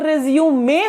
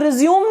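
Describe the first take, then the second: First: The word ends with an extra 'may' syllable. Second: The word ends with a plain 'zoom' sound. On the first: It names the paper describing a person's background. The speaker calls it right. "वो रिज्यूम में होता है" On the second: It means to start doing something again. The speaker calls it wrong. "वो रिज्यूम नहीं होता"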